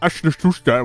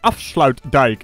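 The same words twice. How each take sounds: First: The name is pronounced in a garbled way. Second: The name is pronounced in standard Dutch. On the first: The speaker calls it wrong. "It's not Afsluitdijk. What the hell did you even say?" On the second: The speaker calls it right. "Let's just say Afsluitdijk"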